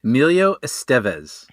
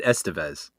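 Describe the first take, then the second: First: Estevez said as es-TEV-ez; second-syllable stress. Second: Estevez said as ES-te-vez; first-syllable stress. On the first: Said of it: "pronouncing my last name correctly". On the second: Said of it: "I think I said". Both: Shown as a demonstration.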